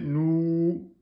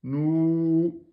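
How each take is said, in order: First: The vowel is held for two full counts. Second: The vowel is held for two full counts.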